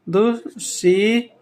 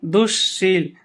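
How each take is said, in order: First: दुश्शील very slowly as दुश्, शी, ल; दुश्शील sounded out in separate parts; broken into syllables. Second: दुश्शील with a held श्श in the middle; दुश्शील as one word, sibilant lengthened; doubled consonant. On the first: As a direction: stretch शी long and let ल come late. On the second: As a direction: lean on the long श्श of दुश्शील. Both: Shown as a demonstration. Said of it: "जैसे इसमें आ जाएगा दुश्शील".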